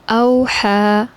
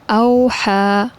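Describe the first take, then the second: No difference in how they are said.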